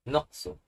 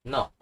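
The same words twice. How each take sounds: First: "Noksu" with the k and an added su; "Noksu" as two syllables, nok-su; both consonants sounded. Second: "Nok" as one syllable, ending on k; "Nok" with only the first final consonant sounded; first consonant dominant. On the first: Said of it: "But since the first consonant is dominant". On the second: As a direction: drop the s, say just "Nok". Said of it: "the pronunciation will be like this". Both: Shown as a demonstration.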